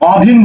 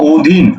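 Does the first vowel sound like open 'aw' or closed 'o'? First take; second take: open aw; closed o. First: The first vowel is an open 'aw' sound. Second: The first vowel is a closed 'o' sound. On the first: The speaker calls it wrong. "অধীন বলছো না" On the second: The speaker calls it right. "বলছো ও"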